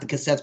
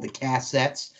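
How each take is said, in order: First: The word is said plainly, without a twang. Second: The word is said with a twang. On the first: "Not the cassettes" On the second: "as my grandfather would say"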